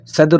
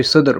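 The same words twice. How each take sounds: First: صدر with an "a", "sadr"; first pronunciation variant. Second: صدر with a "u", "sudr"; second pronunciation variant. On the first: Teacher giving learners one accepted variant, صدر said as "sadr". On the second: Teacher giving learners the other variant, صدر said as "sudr". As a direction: say صدر with a rounded first vowel, sudr. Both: Shown as a demonstration. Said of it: "کوئی صدر بولتے ہیں".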